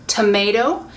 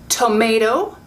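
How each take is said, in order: No difference in how they are said.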